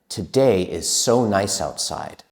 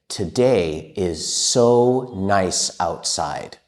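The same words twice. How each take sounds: First: It is spoken at a faster pace. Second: It is spoken at a slow pace.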